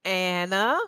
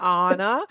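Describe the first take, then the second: First: Anna said as AN-uh; first syllable of Anna rhymes with "can"; short-A pronunciation. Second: Anna said as AH-nuh; first A of Anna as in "father"; first-vowel AH pronunciation. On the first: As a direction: say Anna with the A of "cat". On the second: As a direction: say Anna with an open "ah", like "on-a". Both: Shown as a demonstration. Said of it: "trying to say Anna instead of Anna".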